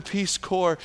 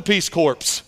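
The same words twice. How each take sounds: First: "Peace Corps" with a silent p and s, "Corps" said "core"; correct Peace Corps. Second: "Peace Corps" ending in a full "corpse", p and s both sounded; corpse mispronunciation. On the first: Student finally says "Corps" right in class, like "core". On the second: Student mispronouncing it again before his teacher, "Corps" as "corpse". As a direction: say "Corps" as "corpse", ps clearly heard. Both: Retold or imitated. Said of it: "learned how to say Peace Corps".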